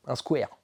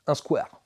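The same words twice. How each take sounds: First: "square" said as a clumsy English "skwair", not the French "skwar"; bad English accent. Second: Said in the usual way. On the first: Shown as a demonstration. (« square » prononcé avec un mauvais accent anglais) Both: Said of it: "mon accent anglais est nul".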